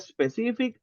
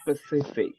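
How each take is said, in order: First: An extra 'e' vowel is added before the s. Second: The word begins directly with the s sound. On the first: The speaker calls it wrong. "I am listening like this one... uh-uh, not like that" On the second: The speaker calls it right. "listen to me, specific"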